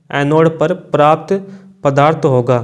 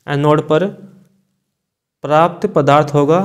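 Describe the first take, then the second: No difference in how they are said.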